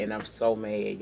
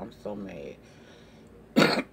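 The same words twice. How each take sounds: First: Said in the usual way. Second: Stretched-out, slow, low I'm so mad; real slow frustration. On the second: Real, not acted. Vlogger venting to viewers, very slow drawn-out moan. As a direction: drag each word out in exasperation.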